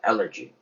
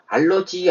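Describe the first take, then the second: First: The stress falls on the first syllable, 'a'. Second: It is said in three syllables as al-leo-ji. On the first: This is the native English form. The speaker calls it right. "액센트가 앞에 찍히고 에 발음이 됩니다" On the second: This is the newer Korean reading. The speaker calls it wrong. "알러지 하면 못 알아들어요"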